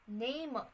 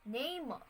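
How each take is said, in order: Both takes have the same delivery.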